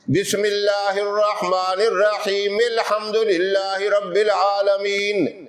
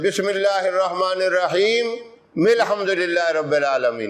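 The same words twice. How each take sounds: First: It runs straight into الحمدللہ without pausing. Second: There is a breath pause before الحمدللہ.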